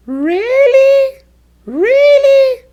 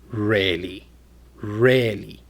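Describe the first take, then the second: First: Loud, very high rising "Really". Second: Low, unimpressed-sounding "Really". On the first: Teacher demonstrating pitch changes meaning, very high voice. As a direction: squeal "Really" up at the top of the range. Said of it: "with a very high voice". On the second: Teacher demonstrating pitch changes meaning, low voice. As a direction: drop "Really" down deep. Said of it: "with a low voice". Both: Shown as a demonstration.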